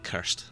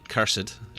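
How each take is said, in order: First: Cursed is said with one syllable, European style. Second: Cursed is said with two syllables, American style.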